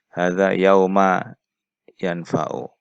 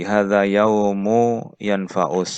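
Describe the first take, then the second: First: The word yaum ends with an a vowel. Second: The word yaum ends with a u vowel. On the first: The word keeps a fixed, uninflected ending. "boleh dibaca apa ini mabni sehingga yauma" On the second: The word is inflected as a predicate. "atau dibaca yaumu yanfa'u"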